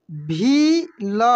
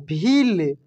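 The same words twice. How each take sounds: First: भील stretched very slowly with a long ई; drawn out. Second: Said in the usual way. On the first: Shown as a demonstration. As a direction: hold the vowel of भील long. (भील को खींचकर बोलिए) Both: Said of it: "कैसे पढ़ेंगे?".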